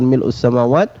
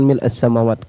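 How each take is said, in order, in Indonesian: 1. Vokal setelah mil' adalah bunyi u. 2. Vokal setelah mil' adalah bunyi a. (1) "Boleh dengan ucapan mil'us samawat" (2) "boleh juga mengucapkan mil'as samawat"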